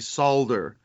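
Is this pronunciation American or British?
British. It is said with a British pronunciation. "they say solder"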